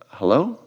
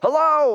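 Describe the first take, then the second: First: Hello is said unsurely, rising like a question. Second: Hello is said confidently, with a falling tone.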